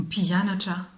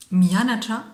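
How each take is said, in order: First: Pianacha said with the p sound, level; Malagasy word. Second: Mianacha said with the m sound, rising; Malagasy word. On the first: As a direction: pianacha starting on a p, said evenly. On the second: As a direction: Mianacha starting on an m, pitch rising at the end. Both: Shown as a demonstration. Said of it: "c'est je suis l'élève".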